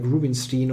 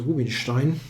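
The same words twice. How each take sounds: First: The name is pronounced with English sounds. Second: The name is pronounced with German sounds. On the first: The speaker calls it wrong. "I'm completely in English language mode, and then I'm doing those weird things like Rubinstein" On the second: The speaker calls it right. "he's called Rubinstein"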